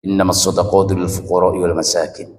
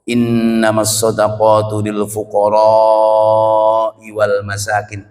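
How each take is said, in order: First: The long vowels are clipped short, like ordinary speech. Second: The long vowels are clearly drawn out and held. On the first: The speaker calls it wrong. "kayak ngomong bahasa Indonesia" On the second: The speaker calls it right. "dengan memanjangkan mat matnya"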